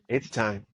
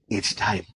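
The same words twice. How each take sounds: First: It is said in the speaker's own normal voice. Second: It is said in a put-on character voice.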